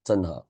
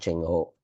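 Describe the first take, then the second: First: The name is said as Zheng He. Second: The name is said as Cheng Ho. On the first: This is the more original form of the name. The speaker calls it right. "Zheng He will be the more accurate pronunciation" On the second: This is the local Malaysian form of the name. The speaker calls it wrong. "Cheng Ho is the uh, Mal Malaysia version of Zheng He"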